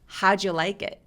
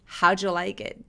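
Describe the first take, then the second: First: The first d of did is dropped. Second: The first d of did is dropped.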